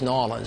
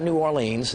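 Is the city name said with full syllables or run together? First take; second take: run together; full syllables. First: The name is squeezed into a quick, lazy blend. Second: Each syllable of the name is said out fully. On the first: The speaker calls it right. "just Nolens" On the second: The speaker calls it wrong. "not New Orleans"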